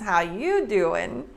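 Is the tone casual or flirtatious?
flirtatious. It is said in a flirtatious, suggestive way. The speaker is hitting on someone. "if you pull a Joey from Friends"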